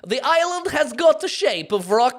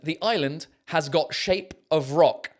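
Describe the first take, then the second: First: It is read in an imitated Borat accent. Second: It is read in the speaker's normal voice.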